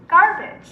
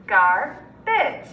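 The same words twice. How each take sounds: First: Said in the usual way. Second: Garbage split as gar, pause, bage; chopped into syllables. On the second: Shown as a demonstration. Teacher segmenting Garbage with students, chopped into syllables. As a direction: chop Garbage into two separate syllables. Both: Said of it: "segment or chop it".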